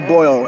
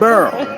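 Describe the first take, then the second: First: The vowel is an 'oy' sound, like boil. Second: The vowel is an 'er' sound, like burr. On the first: This is the standard way others say it. "We don't say boil" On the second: This is how New Orleans locals say it. "We don't say boil"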